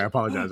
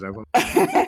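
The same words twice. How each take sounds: First: Said in the usual way. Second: Bedroom voice. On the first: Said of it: "is well done". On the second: Pretend. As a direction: purr the apology right into the mic. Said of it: "Damn, that is well done".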